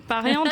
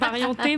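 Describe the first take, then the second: First: The name ends with a consonant sound, French-style. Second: The name ends with a clear 'é' vowel sound. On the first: The name is read the French way. "moi je reste à la française, on va dire pariante" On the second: The name is read a non-French way. "ça se dit aussi parienté"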